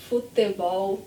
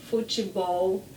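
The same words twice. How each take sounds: The two takes are said the same way.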